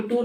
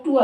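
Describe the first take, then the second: First: टूर as toor, with final R; sounded R. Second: टूर as too-uh, no R; dropped R. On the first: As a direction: end टूर on a clear R. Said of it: "टूर नहीं होता है". (टूर में र साफ़) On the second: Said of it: "टूर होता है". (टूर को टूअ बोलें) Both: Shown as a demonstration.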